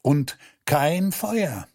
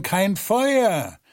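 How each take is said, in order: First: „Feuer“ langsam und fallend betont; „kein Feuer“ gedehnt und langsam als Pointe setzen; betonte Pointe. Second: „Feuer“ höher gesetzt und fallend, ratlos weitergegeben; „kein Feuer“ höher und ratlos. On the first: A narrator's reading. Erzähler betont Schlusspointe. (Erzähler setzt die Pointe, langsam fallend auf „Feuer“) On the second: Acted. Flurleute wiederholen ratlos die Botschaft. (die Flurleute geben ratlos höher „kein Feuer“ weiter)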